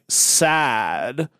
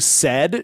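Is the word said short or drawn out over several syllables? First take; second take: drawn out; short. First: The word is drawn out over several syllables. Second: The word is said short, as one syllable. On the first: "every single syllable word is like three syllables" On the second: "instead of saying said"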